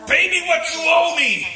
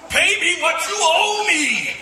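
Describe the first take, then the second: First: Mock threatening demand. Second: Laughing demand. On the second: Acted. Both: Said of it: "choked the other servant, saying".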